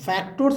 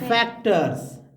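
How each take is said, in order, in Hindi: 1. दूसरे अक्षर में पूरा 'or' स्वर है। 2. दूसरे अक्षर में हल्का 'er' स्वर है। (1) "फैक्टोर्स नहीं" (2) "ओ आर को अर पढ़ेंगे"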